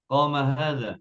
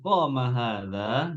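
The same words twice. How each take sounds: First: It is said with statement intonation. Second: It is said with question intonation.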